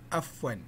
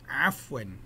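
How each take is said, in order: First: It begins with a plain vowel sound. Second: It begins with a tight throat sound. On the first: The speaker calls it wrong. "A F W A N, bunyinya afwan" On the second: The speaker calls it right. "bunyikan A tu dengan ain yang betul"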